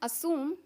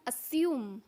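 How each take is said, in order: First: It is said in an American accent. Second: It is said in a British accent. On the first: "American में इसको बोलते हैं" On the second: "British में इसको बोलते हैं"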